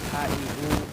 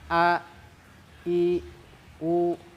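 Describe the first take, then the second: First: The letters are pronounced loosely, without precise articulation. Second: The letters are articulated precisely from the throat. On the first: The speaker calls it wrong. "bacanya asal baca ... baca seperti itu adalah salah" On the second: The speaker calls it right. "Keluarnya dari pangkal tenggorokan"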